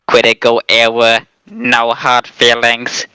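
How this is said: It is said in a put-on robot voice.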